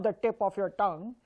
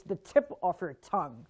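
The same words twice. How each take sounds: First: "tip" and "tongue" with unaspirated t; wrong T sound. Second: "tip" and "tongue" with a gush of air on t; plosive, airy t starting "tip" and "tongue"; correct aspirated T. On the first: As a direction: say "tip" and "tongue" without a puff of air. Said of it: "it's not the tip of your tongue". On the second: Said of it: "it means the gush of air". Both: Shown as a demonstration.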